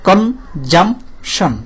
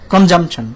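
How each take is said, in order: First: কনজামশন very slowly, con... jum... shon; long gaps between the three beats of কনজামশন; three separate syllables. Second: Said in the usual way. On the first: Shown as a demonstration. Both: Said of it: "তিনবার বাড়ি খায় এটা".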